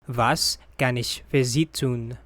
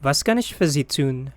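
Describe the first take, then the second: First: Said in the usual way. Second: Was kann ich für Sie tun said quickly at full speed; natural speed. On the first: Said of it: "repeat for learners". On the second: Shown as a demonstration. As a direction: rattle it off like a native. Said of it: "phrase said at natural speed first". (quick native-speed read)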